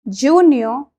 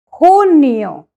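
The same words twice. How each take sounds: First: The word begins with a J sound. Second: The word begins with an H sound. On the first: The speaker calls it wrong. "it's not junio" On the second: The speaker calls it right. "it's junio, because the J sound has an H sound"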